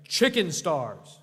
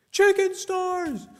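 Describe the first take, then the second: First: Slow, drawn-out chicken stars on request; slow repeat. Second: High, loud yelled chicken stars; yelled catchphrase. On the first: Shown as a demonstration. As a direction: give it again, slowly. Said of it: "Say it again". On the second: Real, not acted. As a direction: shout it out while fleeing. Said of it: "I clearly yelled".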